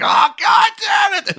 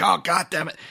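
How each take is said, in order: First: Much higher, much louder, slow screamed curse; hammed-up screaming fit of rage; furious shout. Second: A touch of irritation, quickly shrugged off; mock-grumble like he'll laugh it off in a second; half-hearted curse, a little higher; mild annoyance. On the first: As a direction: blow up as if the scheme just collapsed. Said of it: "he's just like". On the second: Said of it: "he'll be like".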